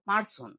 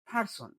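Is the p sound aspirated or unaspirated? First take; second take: unaspirated; aspirated. First: The p has no puff of air. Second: The p has a strong puff of air. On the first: The speaker calls it wrong. "আমরা বলি" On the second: The speaker calls it right. "সঠিক হচ্ছে"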